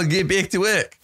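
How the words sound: It is said in an Australian accent. "It's a cynical Australian"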